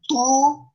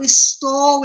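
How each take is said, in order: First: The word is said in a shortened form. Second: The word is said in its full form.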